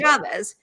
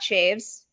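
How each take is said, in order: First: Two syllables ending in an 'ez' sound. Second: One syllable with a long 'ay' vowel. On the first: "it is not Chavez" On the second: "It is not Shaves"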